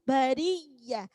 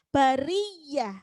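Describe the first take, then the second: No difference in how they are said.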